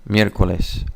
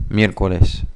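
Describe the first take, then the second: Both takes have the same delivery.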